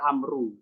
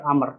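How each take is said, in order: First: The name ends with an added u vowel. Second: The name ends on the consonant r. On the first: The speaker calls it wrong. "banyak orang yang salah baca Amru" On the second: The speaker calls it right. "Yang benar Amr"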